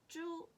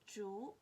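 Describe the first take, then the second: First: The pitch stays high and level. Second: The pitch rises from mid to high.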